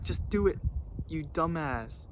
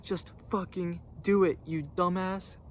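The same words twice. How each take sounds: First: Higher, mock annoyed retort; lightly voiced fed-up coworker; imitating angry partner. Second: Higher mock snap at his partner; a hint of an irritated coworker; imitating angry partner. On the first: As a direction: replay the partner's irritated dismissal. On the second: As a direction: play the annoyed partner brushing him off. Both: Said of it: "'Cause he was mad".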